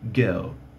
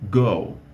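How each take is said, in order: First: It is said with a British accent. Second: It is said with an American accent. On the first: "no britânico go" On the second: "no inglês americano diria go"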